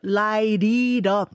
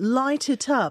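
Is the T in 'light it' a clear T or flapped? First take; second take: flapped; clear T. First: It is said in a North American accent with flapped Ts. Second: It is said in a British accent with clear Ts.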